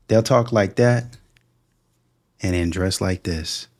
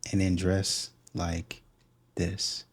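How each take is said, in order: First: Slow, pointed, "talk" and "dress" each weighed; slow pointed contrast. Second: Slow, dropping much softer on "and then dress like this"; fading to a hush. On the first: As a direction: spell out "They'll talk like that and then dress like this" slowly, weighing each half. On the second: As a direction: let "this" sink almost to nothing, slow. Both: Shown as a demonstration.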